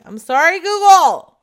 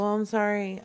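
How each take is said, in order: First: Much louder and higher; shouted apology. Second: Said in the usual way. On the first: Pretend. Apologising to Google on her phone, shouted. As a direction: holler it out to the phone.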